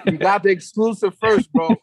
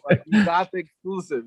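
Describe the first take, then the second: First: Laughing while talking, louder. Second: Said in the usual way. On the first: Real, not acted. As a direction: chuckle through the words. Laughing over the exclusive.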